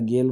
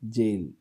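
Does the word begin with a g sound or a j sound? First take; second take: g sound; j sound. First: The word begins with a hard g sound. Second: The word begins with a soft j sound. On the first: The speaker calls it wrong. "ह्याला गेल म्हणत नाही" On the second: The speaker calls it right. "मग जेल तिथं गचा उच्चार होत नाही"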